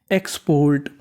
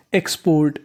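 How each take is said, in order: Both takes have the same delivery.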